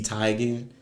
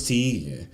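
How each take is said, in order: First: "Teigen" said as TIE-gen, long i; pronounced TIE-gen. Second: "Teigen" said as TEE-gen, long e; pronounced TEE-gen. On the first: Questioning the girl's name, "Teigen" as TIE-gen. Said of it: "pronouncing this girl's name wrong". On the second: The name as always thought, "Teigen" as TEE-gen. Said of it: "I always thought it was". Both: Shown as a demonstration.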